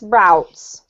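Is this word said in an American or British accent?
American. It is said with an American accent. "If you pronounce this American"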